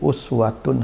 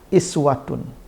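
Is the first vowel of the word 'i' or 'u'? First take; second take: u; i. First: The word begins with a 'u' vowel. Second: The word begins with an 'i' vowel. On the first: "kalau uswah dia dhammah" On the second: "hamzahnya itu bisa dikasih harakat kasrah"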